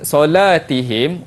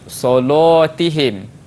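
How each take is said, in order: First: The l sound is light and thin. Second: The l sound is heavy and thick. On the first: This is the usual reading. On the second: This is the Warsh reading.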